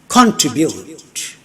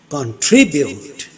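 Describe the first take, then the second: First: The stress is on the first syllable. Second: The stress is on the second syllable. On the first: The speaker calls it wrong. "Contribute is wrong" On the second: The speaker calls it right. "Tribute, second syllable"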